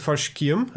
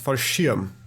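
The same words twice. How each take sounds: First: The word is said with a k sound. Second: The word is said without a k sound. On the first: The speaker calls it wrong. "I said Fallschirm" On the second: The speaker calls it right. "Apparently, it's not with a K"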